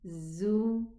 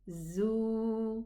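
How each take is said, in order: First: The vowel is kept short. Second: The vowel is held long. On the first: "Without a wow, just the dhamma above" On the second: "Adding a wow sukoon, we're going to extend it"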